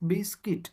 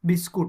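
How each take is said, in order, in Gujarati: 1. બીજો ભાગ 'kit' જેવો સંભળાય છે. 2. બીજો ભાગ 'koot' જેવો સંભળાય છે. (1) "શું બોલાશે?" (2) "જે ઉચ્ચાર ખોટો છે"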